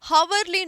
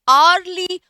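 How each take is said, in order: First: It begins with an h sound. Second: It begins with a vowel sound. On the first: The speaker calls it wrong. "हावरली नहीं होगा" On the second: The speaker calls it right. "आर्ली visit होगा"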